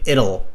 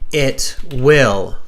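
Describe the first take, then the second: First: The two words are contracted into one short word. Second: The two words are said separately in full. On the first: The speaker calls it wrong. "it'll is a pretty tricky pronunciation, as you can hear me say it" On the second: The speaker calls it right. "do not contract your grammar"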